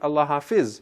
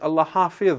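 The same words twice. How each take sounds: First: It is pronounced the non-Arabic way. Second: It is pronounced the Arabic way. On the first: The speaker calls it wrong. "not Allah Hafiz" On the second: The speaker calls it right. "if you're going to say it in Arabic, then it is Allah Hafiz"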